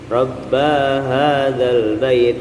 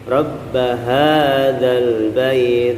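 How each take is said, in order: First: The voice stops and lingers on the 'ba' sound. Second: The voice moves straight from 'ba' to 'ha'. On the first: The speaker calls it wrong. "terhenti di situ akhirnya ba-nya jadi panjang ... keliru" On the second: The speaker calls it right. "ya langsung ba ke ha-nya langsung saja"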